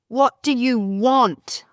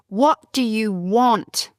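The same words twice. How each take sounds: Both takes have the same delivery.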